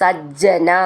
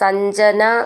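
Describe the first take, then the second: First: The middle sound is a doubled j. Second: The middle sound is n followed by j. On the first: The speaker calls it right. "രണ്ട് ജന്ന് ചേർത്ത് എഴുതിയതാണ്" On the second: The speaker calls it wrong. "സഞ്ജന എന്നൊന്നും വായിക്കരുത്"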